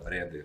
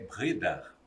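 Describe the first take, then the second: First: The name is said with a Portuguese pronunciation. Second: The name is said with a German pronunciation. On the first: "mas a gente fala Breder mesmo" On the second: "em alemão"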